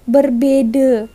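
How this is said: The middle consonant is a d sound. This is the Pontianak way of saying it. "Tadi dicakap kakak ini tetap juga berbeda"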